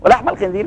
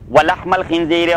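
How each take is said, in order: First: Said in the usual way. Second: Drawn-out chanted recitation; slow Quran recitation. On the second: Shown as a demonstration. Teacher reciting the verse to his class, slow chanted recitation. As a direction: stretch the words and intone them. Slow recited take set against quick repeat.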